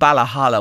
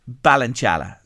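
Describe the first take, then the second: First: The name is said in its local reduced form. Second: The name is said in its standard full form. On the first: "would be the local pronunciation" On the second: "I called the house Ballinchalla"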